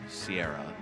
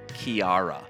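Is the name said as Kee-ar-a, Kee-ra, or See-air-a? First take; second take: See-air-a; Kee-ar-a. First: It starts with an S sound, three syllables. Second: It starts with a K sound, three syllables. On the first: This is how some non-Irish people say it. "Or Sierra. As some people would say" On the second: This is how a foreign broadcaster said it. "someone on Sky News pronounced it Kiara"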